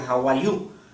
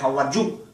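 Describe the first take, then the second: First: 'You' begins with a soft vowel-like glide. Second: 'You' begins with a hard j-like consonant. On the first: The speaker calls it right. "uno tendría que decir how are you" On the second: The speaker calls it wrong. "uno no dice how are you"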